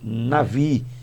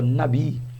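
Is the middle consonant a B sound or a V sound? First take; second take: V sound; B sound. First: The middle consonant is a V sound. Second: The middle consonant is a B sound. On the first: "a quem pronuncia navi" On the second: "que seria a palavra nabi"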